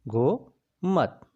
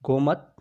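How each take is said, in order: First: Gomat stretched out very slowly, syllable by syllable; slowly drawn out. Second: Said in the usual way. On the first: Shown as a demonstration. Teacher spelling Gomat slowly for the class, drawn out. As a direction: draw out Gomat so students catch every sound.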